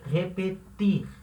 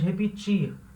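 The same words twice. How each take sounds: First: The t is a plain t sound. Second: The t sounds like ch. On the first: This is the Spanish way of saying it. The speaker calls it right. "Esse T vai ter som de T" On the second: This is the Portuguese way of saying it. The speaker calls it wrong. "a gente fala em português repetir. Então esse T, ele fica igual o T do tchau"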